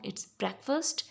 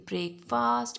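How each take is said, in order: First: The first vowel is an E sound. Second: The first vowel is not an E sound. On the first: The speaker calls it right. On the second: The speaker calls it wrong. "you don't say breakfast, it's wrong"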